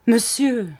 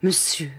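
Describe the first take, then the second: First: Higher, more urgent plea; rising plea. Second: Said in the usual way. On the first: A narrator's reading. The weeping wife begging her husband, higher and more urgent. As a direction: let the plea climb. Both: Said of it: "elle disait pour toute réponse".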